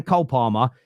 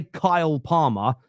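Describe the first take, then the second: First: "Cole Palmer" with a broad Southern o; no i glide in the Cole of "Cole Palmer"; own-accent pronunciation. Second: "Kyle Palmer" with a clear long i in Kyle; contrast pronunciation. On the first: Host insisting on what he's saying, "Cole Palmer" in his own accent. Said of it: "just how my voice sounds". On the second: Host rejecting what listeners hear, "Kyle Palmer" with a long-i glide. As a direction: make the Kyle of "Kyle Palmer" rhyme with mile. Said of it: "I don't say Kyle Palmer". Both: Shown as a demonstration.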